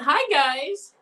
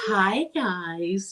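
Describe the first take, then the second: First: It is said in a grating, annoying voice. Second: It is said in a sultry, sexy voice.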